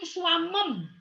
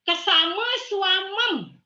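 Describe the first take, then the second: First: The ma syllable is left out before swamem. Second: A full syllable ma comes before swamem. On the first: The speaker calls it wrong. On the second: The speaker calls it right.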